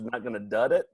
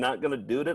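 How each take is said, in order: First: The key word sounds like 'dud'. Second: The key word sounds like 'dood'. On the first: The way it is said in the original clip. "Doesn't sound right" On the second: The habitual way the catchphrase has been said. "After thirty years of saying"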